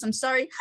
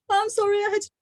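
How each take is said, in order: First: Said in the usual way. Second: Pitched-up sorry, caught mid-labor; high, breathless apology. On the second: Retold or imitated. To the midwife, mid-labor, apologizing in a high breathless voice. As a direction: apologize high and breathless, right after a gasp. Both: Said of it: "And I said".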